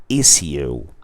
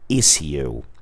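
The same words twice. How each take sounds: First: It is said with a British pronunciation. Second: The same.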